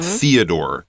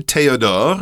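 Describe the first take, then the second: First: The name is pronounced the English way. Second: The name is pronounced the French way. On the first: "That's how we would say it" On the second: "That would be the French"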